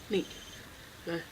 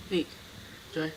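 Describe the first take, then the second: No difference in how they are said.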